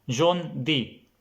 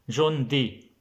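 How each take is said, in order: Both takes have the same delivery.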